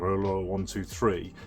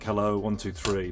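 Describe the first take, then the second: First: It is said slowly and drawn out. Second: It is said at normal speed.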